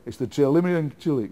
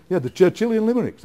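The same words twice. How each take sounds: First: "Churchillian Chillick" with "limericks" garbled into "Chillick"; mock botched take, "Churchillian Chillick" said as "chell-imm-er-ee-ent shill-ick"; fluffed line. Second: "the Churchillian limericks" said clearly, higher and louder; mock correct take with "limericks" said fully and loud; got it right. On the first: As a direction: stumble over "Churchillian Chillick" like a player getting it wrong. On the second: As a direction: land "Churchillian limericks" triumphantly, every syllable clean. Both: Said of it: "We'd have probably to do a few takes".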